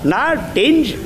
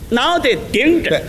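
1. 说得快，字音连在一起。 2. 说得慢，每个字都清清楚楚。

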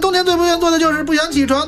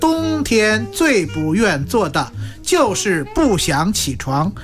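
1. 这句话一口气快速念完。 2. 这句话念得慢而清楚。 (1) "你得念快一点" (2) "要说不利索就别说快了……他得这样说"

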